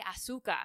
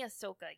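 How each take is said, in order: First: The middle syllable sounds like 'su'. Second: The middle syllable sounds like 'so'. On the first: This is how one person in the group says the name. The speaker calls it wrong. "You say Asuka. ... Like sugar ... In Spanish" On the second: This is the usual pronunciation of the name. The speaker calls it right. "but you don't say Ahsoka"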